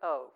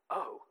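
First: It is said flatly, without emotion. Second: It is said with emotional awe.

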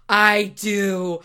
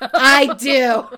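First: It is said at a quieter volume. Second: It is said at a louder volume.

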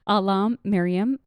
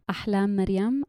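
First: The name is said with English-style pronunciation. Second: The name is said with Arabic-style pronunciation.

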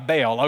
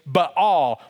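First: The name is said in a Southern American pronunciation. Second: The name is said in a Hebrew-style pronunciation. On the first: This is the familiar regional pronunciation. "I'm a Southern scholar and it goes by Baal" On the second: This is the scholarly original pronunciation. "if you're a Hebrew scholar, you know that the actual pronunciation is Baal"

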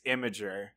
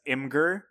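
First: The name is said as 'imager', like image-er. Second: The name is said as 'im-gur', two syllables. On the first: This is the apparently correct pronunciation. The speaker calls it right. "Apparently, it's imager" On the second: This is the habitual pronunciation. The speaker calls it wrong. "I've always been pronouncing it as Imgur"

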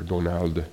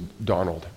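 First: The name is said the way locals say it. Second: The name is said in the speaker's usual way.

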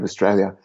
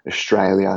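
First: The middle 'st' has a plain s sound. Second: The middle 'st' has an sh sound. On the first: "instead of Australia" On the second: "Australians S-back a lot"

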